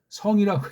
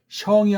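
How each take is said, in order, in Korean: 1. 모음은 평음이에요, 'seong', 반모음은 없어요. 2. 모음이 y 반모음으로 시작해요, 'syeong'. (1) "성이라고 했어요" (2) "앞에 거만 성이 아니고"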